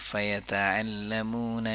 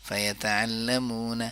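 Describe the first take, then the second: No difference in how they are said.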